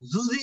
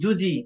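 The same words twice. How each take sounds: First: The consonant drifts toward a z sound. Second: The consonant is a clear j sound. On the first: The speaker calls it wrong. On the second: The speaker calls it right.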